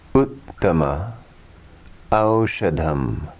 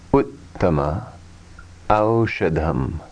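The two takes are said the same way.

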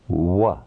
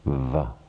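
First: The consonant is made with both lips rounded. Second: The consonant is made with teeth on lower lip.

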